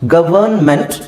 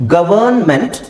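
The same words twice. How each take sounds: The two takes are said the same way.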